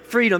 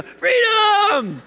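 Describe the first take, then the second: First: Said in the usual way. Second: Much higher, full-throated mock war cry; Braveheart battle cry. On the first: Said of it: "there you go". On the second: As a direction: belt it out like a movie hero charging. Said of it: "What did he yell at the end of Braveheart?".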